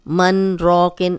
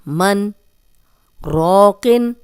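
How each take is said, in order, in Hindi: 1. दोनों शब्द बिना रुके एक साथ बोले जाते हैं। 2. दोनों शब्दों के बीच एक छोटा सा ठहराव आता है। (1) "ऐसे नहीं" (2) "इतना आपने स्टॉप करना है"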